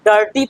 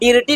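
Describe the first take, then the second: First: The first vowel sounds like 'uh'. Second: The first vowel sounds like 'ih'. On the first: The speaker calls it right. "डर्टी पढ़ते हैं" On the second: The speaker calls it wrong. "डिर्टी नहीं"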